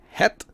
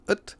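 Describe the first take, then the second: First: It is said with an h sound. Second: It is said without an h sound. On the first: It is the more official, careful form. "We have the articles de, het" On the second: It is the more natural, casual form. "shifting to ut"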